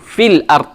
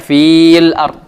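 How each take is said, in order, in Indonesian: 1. Huruf mad setelah f dijatuhkan. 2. Huruf mad setelah f dipanjangkan. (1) "Tapi langsung fil ard, maka ya-nya jatuh" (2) "Kita tidak baca fil ard, tidak"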